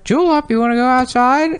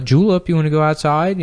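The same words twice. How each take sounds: First: Much higher squawky parrot mimic; spiteful parrot mimics the owner to set off the dog; parrot imitating owner. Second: Higher, sing-song call to the dog; owner's cheerful question to the dog, lightly voiced. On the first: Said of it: "hear the parrot go". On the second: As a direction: ask the dog lightly, voice lifted. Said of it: "they would say to the dog".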